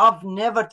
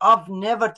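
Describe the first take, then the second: First: I have is shortened into one syllable. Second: I have is shortened into one syllable.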